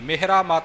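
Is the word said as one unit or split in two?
split. The word is broken into two separate parts. The speaker calls it wrong. "Mehra ਮਤ ਨਹੀਂ ਕਰਨਾ"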